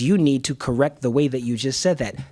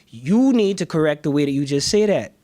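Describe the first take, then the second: First: It is spoken in standard American English. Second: It is spoken in a casual African American English style. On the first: The speaker calls it right. "That's better" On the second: The speaker calls it wrong. "sound this way"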